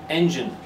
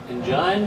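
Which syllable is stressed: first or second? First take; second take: first; second. First: The stress is on the first syllable. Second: The stress is on the second syllable. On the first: The speaker calls it right. "It's the first syllable" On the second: The speaker calls it wrong. "doesn't sound right"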